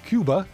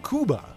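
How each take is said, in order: First: It is said the usual English way. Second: It is said the Spanish way.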